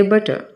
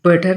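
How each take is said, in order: First: बटर ending in a soft schwa, no r; बटर said lightly, r dropped; correct pronunciation. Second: बटर with a rolled r at the end; बटर, final r sounded, as the mistake; wrong pronunciation. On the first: Teacher giving students the right form, r dropped. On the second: Teacher showing students the mistake, final r sounded. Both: Shown as a demonstration. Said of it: "बटर नहीं कहते".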